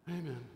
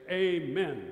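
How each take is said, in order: First: It is said quickly and half-heartedly. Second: It is said firmly and with conviction. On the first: The speaker just wants to get it over with. The speaker calls it wrong. "we shouldn't say it like, amen. Get it over with" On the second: The speaker fully stands behind the prayer. The speaker calls it right. "We should say, amen, that's me"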